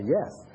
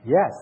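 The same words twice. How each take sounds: First: It is said at normal, softer volume. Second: It is said loudly.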